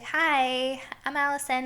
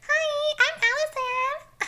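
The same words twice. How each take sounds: First: It is said in her own natural voice. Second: It is said in an exaggerated mocking voice.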